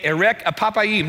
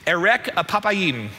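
First: "erek apapayim" again, stress shifting to apapayim; Hebrew repeated. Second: "erek apapayim" said carefully, stress on erek; Hebrew phrase. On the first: Pastor repeating the Hebrew for the congregation, clearly. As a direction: repeat "erek apapayim" so the room can follow. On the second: Pastor teaching the Hebrew term, careful and clear. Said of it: "this phrase in the Hebrew is actually". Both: Shown as a demonstration.

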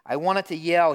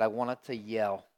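First: Raised, loud voice of an incredulous pastor; retold yell. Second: Said in the usual way. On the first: Pastor retelling his outrage at a churchgoer, in a loud yell.

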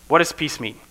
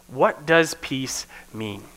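First: Said in the usual way. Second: Slow, with weight on does; slow question. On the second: Shown as a demonstration. Preacher posing the question to the congregation, slow and deliberate. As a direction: pose "what does peace mean?" slowly, leaning on does. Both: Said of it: "So this first question is".

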